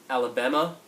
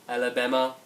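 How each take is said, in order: No difference in how they are said.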